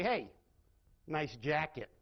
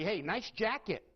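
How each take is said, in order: First: Sarcastic compliment. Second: Sincere compliment. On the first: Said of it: "Very different meaning". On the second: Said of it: "I can use the exact same words and say". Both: Shown as a demonstration.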